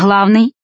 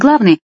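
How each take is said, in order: First: It starts with a soft, breathy h-like sound. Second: It starts with a hard, stopped g sound.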